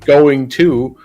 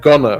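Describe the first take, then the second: First: It is said as the full form going to. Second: It is said as the reduced form gonna. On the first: "not saying going to" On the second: "Like I just said, gonna"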